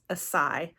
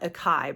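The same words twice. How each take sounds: First: The c is said with an S sound. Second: The c is said with a K sound. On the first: The speaker calls it right. "I think it's Acai. That, like, C in there is more of like a S sound" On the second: The speaker calls it wrong. "I go to call it Acai"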